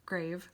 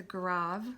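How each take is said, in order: First: "grave" said like the English word, rhyming with cave; English reading. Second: "grave" said grahv, with a long ah; French-style reading. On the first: Teacher offers the alternative English "grave". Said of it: "spelled like grave". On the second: Teacher gives the accent name "grave" as grahv. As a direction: say "grave" as grahv, rhyming with suave. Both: Shown as a demonstration.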